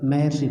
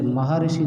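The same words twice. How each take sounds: First: महर्षि said as "mahar-shi", with the r fused into shi; महर्षि said correctly as maharshi, no extra i; correct joined reading. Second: महर्षि read split apart as "ma-ha-ri-shi"; wrong split reading. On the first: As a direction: read महर्षि in three tight syllables, "ma-har-shi". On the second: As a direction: spell out महर्षि in four syllables, "ma-ha-ri-shi". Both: Shown as a demonstration. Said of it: "इसे महर्षि नहीं पढ़ के".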